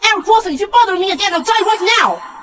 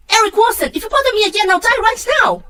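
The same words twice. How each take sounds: First: Shrieking fast and high at her father; furious scream. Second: High, loud shriek of despair; furious scream. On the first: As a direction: scream it out, at the end of her rope. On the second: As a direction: scream it, begging to be left alone. Same outburst replayed. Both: Acted. Daughter screaming at her father to leave her alone, furious.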